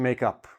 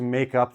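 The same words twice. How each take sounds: First: The stress falls on the word up. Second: Both words carry stress. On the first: It means to make peace after a fight. "I'm putting the stress on the on the preposition" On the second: It means to do a missed test. "I will put the stress on both"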